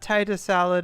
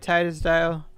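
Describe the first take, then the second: First: The name is said as 'tater salad'. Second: The name is run together as 'tatorsdale'. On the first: The speaker calls it right. "as in like potato salad" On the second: The speaker calls it wrong. "I I always say that wrong"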